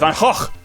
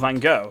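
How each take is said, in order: First: The name is said with a Dutch pronunciation. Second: The name is said with an English pronunciation. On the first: The speaker calls it right. "I want to know in Dutch" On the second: The speaker calls it wrong. "everyone who speaks English is wrong"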